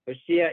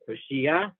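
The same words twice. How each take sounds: First: The stress is on the second-last syllable. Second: The stress is on the last syllable. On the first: The speaker calls it right. "stress on the she" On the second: The speaker calls it wrong. "stress on the last syllable"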